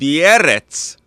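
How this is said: The word is said in a Russian accent. "like a Russian"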